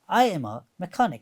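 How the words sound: The pitch falls at the end. The speaker calls it right. "It goes down"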